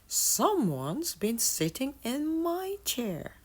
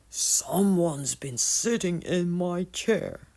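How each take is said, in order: First: It is said in mama bear's voice. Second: It is growled in papa bear's voice.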